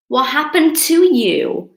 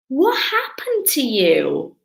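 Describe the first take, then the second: First: "to" in "to you" hit louder and higher; stress on TO. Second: Said in the usual way. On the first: Acted. Viewer asking crying teacher what happened, stressing "to". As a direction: punch the word "to" before "you". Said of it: "Because when you cry". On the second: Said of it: "And you're like".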